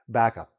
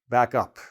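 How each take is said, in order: First: The stress falls on the word back. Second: The stress falls on the word up. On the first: It is a noun or adjective meaning a copy. "It sounds like one syllable for the one word" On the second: It is a verb meaning to move backwards or make a copy. "I'm stressing the up more"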